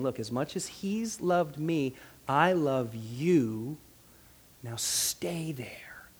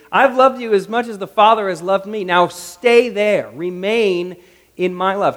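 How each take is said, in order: First: Very slow and soft, sinking to a whisper; tender declaration. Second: Loud, commanding preaching delivery; emphatic proclamation. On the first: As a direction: draw each word out tenderly, ending whispered. Voices Jesus tenderly declaring love. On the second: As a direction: proclaim it forcefully, drawing out the command. Preaches Jesus's words emphatically. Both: Acted.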